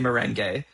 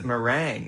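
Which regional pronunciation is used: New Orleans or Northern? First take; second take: Northern; New Orleans. First: It is said the Northern way. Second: It is said the New Orleans way. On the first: "The North wins. So, you know what? Let's say merengue" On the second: "that's how they say it in New Orleans"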